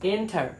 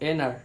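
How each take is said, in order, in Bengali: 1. t ধ্বনিটি স্পষ্টভাবে উচ্চারিত হয়। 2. t ধ্বনিটি সম্পূর্ণ বাদ যায়।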